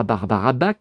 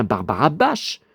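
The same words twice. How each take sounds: First: "Bach" prononcé "bache", ch chuintant; mauvaise prononciation. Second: "Bach" prononcé "bak", k dur final; bonne prononciation. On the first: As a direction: dites "Barbara Bach" à la française avec ch. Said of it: "on dit pas". ("Bach" en ch doux) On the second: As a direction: dites "Barbara Bach" avec un k à la fin. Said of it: "on dit bien". ("Bach" en k net, pas de ch) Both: Shown as a demonstration.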